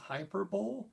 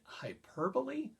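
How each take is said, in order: First: The final e is silent, rhyming with bowl. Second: The final e is pronounced as a syllable. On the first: The speaker calls it wrong. "I know it's spelled hyperbole" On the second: The speaker calls it right. "we pronounce it hyperbole"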